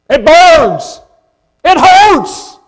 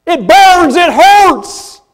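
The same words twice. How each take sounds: First: «burns» et «hurts» hammered higher and louder, falling hard; stress on burns, hurts. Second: «burns», «hurts» driven higher and louder, falling; repeated preaching punch. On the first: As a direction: punch «It burns» then «It hurts» like blows. Preacher punching the gospel's sting. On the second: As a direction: hit «burns» and «hurts» hard. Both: Real, not acted.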